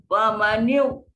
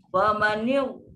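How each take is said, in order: No difference in how they are said.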